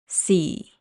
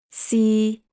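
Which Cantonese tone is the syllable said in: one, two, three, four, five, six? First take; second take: four; three. First: The syllable is said in Cantonese tone four. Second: The syllable is said in Cantonese tone three. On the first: "Tone four" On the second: "Tone three"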